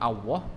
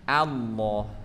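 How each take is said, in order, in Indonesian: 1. Kata ini diawali bunyi seperti w yang dibulatkan. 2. Kata ini diawali vokal biasa, tanpa w. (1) "bukan pakai w atau bukan pakai waw, bukan Allah" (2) "tapi Allah"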